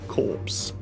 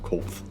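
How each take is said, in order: First: The s sound is said clearly. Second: The s sound is said with a lisp. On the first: The speaker calls it right. "Corpse, not corpse" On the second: The speaker calls it wrong. "Don't know why I decided to have a lisp there"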